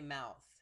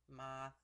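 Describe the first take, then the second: First: It is said in a standard American accent. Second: It is said in a Pittsburghese accent.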